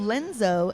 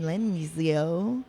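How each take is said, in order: First: The name is said with a plain n sound. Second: The name is said with an ny sound. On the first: The speaker calls it right. "no tilde" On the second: The speaker calls it wrong. "but we can call him Lenzio"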